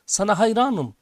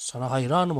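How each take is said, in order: First: Raised, swelling call of praise; narrated shout. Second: Said in the usual way. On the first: A narrator's reading. Father turns to the mountain, narrated shout. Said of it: "diye bağırıyor". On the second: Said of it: "Gelen cevap".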